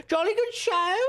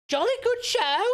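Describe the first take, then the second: First: Put-on loud jolly old-chap voice; hearty booming country squire. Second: High, loud jolly gentleman; hearty booming country squire. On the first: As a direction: toast it like a merry squire. Repeats the posh exclamation. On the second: Acted. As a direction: boom it like a cheery squire. Hammed posh exclamation.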